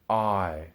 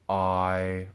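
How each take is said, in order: First: The pitch falls from the middle. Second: The pitch stays level in the middle. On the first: "then as falling tones" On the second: "first as a middle tone"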